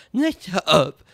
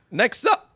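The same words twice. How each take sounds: First: Said in the usual way. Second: Higher, louder call that cracks; cracking announcer call. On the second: Real, not acted. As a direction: let the voice break on Next up. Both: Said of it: "I almost cracked myself".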